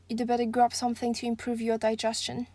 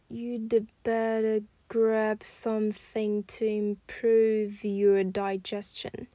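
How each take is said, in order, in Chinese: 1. 这句话是正常偏快的语速。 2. 这句话说得很慢，能听出连读的声音。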